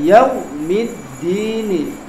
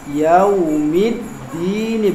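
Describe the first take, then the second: First: The 'yau' sound comes out hard and forced. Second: The 'yau' sound flows out softly and easily. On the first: The speaker calls it wrong. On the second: The speaker calls it right. "sifat lin adalah sifat yang lembut"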